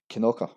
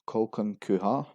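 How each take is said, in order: First: The name is said in a short local form. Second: The name is said fully, following the spelling. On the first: The speaker calls it right. "actually pronounced as Kinoka" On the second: The speaker calls it wrong. "two of the most common mispronunciation"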